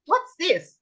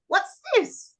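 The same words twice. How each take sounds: First: Put-on high, bright question to a child; teacher quiz voice. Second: Put-on high question to a child; teacher quiz voice. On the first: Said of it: "I'll say". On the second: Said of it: "And then I'll say". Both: Shown as a demonstration. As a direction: ask it like quizzing a small child.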